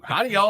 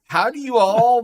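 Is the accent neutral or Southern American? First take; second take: Southern American; neutral. First: It is said in a Southern American accent. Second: It is read in a plain northern accent.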